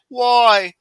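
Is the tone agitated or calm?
calm. It is said in a calm, plain way.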